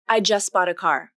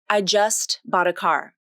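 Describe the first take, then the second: First: The T at the end of 'just' is dropped. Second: The T at the end of 'just' is pronounced. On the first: The speaker calls it right. "The second option, just bought, is how those words link together" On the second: The speaker calls it wrong. "Is it like this?"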